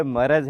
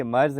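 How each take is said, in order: First: مرض said as maraz, with an a after the re; مرض in three sounds, ma-raz, slowly; correct pronunciation. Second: مرض said as marz, re with no vowel; مرض clipped to marz; wrong pronunciation. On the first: Teacher shows children the right way: مرض as maraz. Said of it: "فتح ہے، آ، زبر ہے". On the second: Teacher shows children the wrong way: مرض as marz. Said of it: "رے کے اوپر، آ، فتح ہے". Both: Shown as a demonstration.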